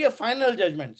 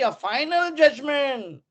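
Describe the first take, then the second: First: Said in the usual way. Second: "final judgment" drawn out slowly, pitched higher on "final"; stress on FINAL. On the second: Real, not acted. Lecturer flags a very important term for students, stress on "final". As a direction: lean on "final", stretching the phrase.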